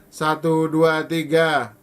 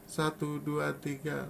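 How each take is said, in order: First: The counting is spoken loudly. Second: The counting is spoken softly. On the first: "Lalu keras" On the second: "Lalu rembut"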